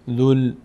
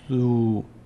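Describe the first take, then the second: First: The word ends with an l sound. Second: The word ends in a long u vowel. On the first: The word is joined to the following article. "این ضمه رو باید بچسبونیم به این لام" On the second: The word stands alone without the following article. "اگر اینا نبودن این کلمه میشد ذو"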